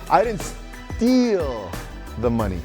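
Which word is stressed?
steal. The stress is on the word steal.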